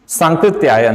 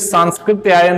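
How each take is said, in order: First: No s sound comes before the k. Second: An extra s sound comes before the k. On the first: The speaker calls it right. "बल्कि सांकृत्यायन है" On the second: The speaker calls it wrong. "ये सांस्कृत्यायन नहीं है"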